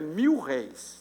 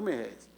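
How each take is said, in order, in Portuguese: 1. As duas palavras são ditas separadamente, com um 'l' claro. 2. As duas palavras são misturadas, com 'mil' reduzido a 'mer'. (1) "a pronúncia correta é mil réis" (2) "não merréis"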